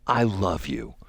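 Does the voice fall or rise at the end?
fall. The voice falls at the end, a statement.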